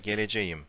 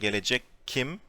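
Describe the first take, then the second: First: A softened, smooth sound comes before the ending. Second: A hard k sound comes before the ending. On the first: The speaker calls it right. "we say" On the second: The speaker calls it wrong. "Instead of saying"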